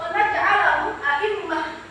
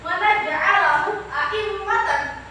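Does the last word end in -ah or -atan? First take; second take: -ah; -atan. First: The last word ends with a final h sound. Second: The last word ends with -atan. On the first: This is the reading when stopping on the word. "kalau misalnya wakaf ... Seperti itu dibacanya" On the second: This is the reading without stopping. "Walaupun ada tanwin"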